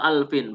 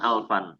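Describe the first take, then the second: First: The word ends with an 'in' sound. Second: The word ends with an 'an' sound. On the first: The speaker calls it right. "Kemudian wa alfin" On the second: The speaker calls it wrong. "bukan alfan"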